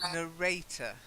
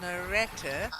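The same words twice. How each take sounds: First: The middle syllable has a long 'ay' vowel. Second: The middle syllable has a short 'eh' vowel. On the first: The speaker calls it right. "you've got to get that long A sound" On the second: The speaker calls it wrong. "you're saying retta"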